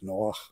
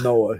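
First: The name ends in a harsh throat sound. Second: The name ends in a plain vowel sound. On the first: The speaker calls it right. "It's Noah. It's got that. Not the hay" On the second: The speaker calls it wrong. "Noah is not Noah"

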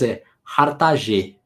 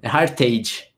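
First: The name is said with a French accent. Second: The name is said with an American accent.

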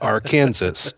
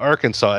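First: The word ends like the state name 'Kansas'. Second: The word ends with a 'saw' sound. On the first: This is how the spelling would suggest saying it. The speaker calls it wrong. "and not Arkansas?" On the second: This is how the state's name is actually said. The speaker calls it right. "Why do we call it Arkansas"

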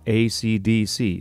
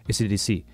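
First: Each letter is said separately and clearly. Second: The letters are run together and blurred. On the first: The speaker calls it right. "make sure that you say the letters separately so it's clear what you're saying" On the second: The speaker calls it wrong. "not ACDC or similar"

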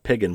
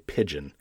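First: The G is hard, as in 'pig'. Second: The G is soft, as in 'pigeon'. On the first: The speaker calls it wrong. "I'm going to guess it's not piggin" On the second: The speaker calls it right. "probably pigeon is probably the way they choose to pronounce that"

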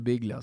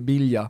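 First: The g and l are both sounded. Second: The gl is said as a y-like sound. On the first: "på spanska så är det Biglia" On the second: "om man bara uttalar det på italienska, GL blir i"

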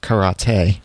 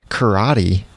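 First: It is said with a Japanese pronunciation. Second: It is said with an American pronunciation.

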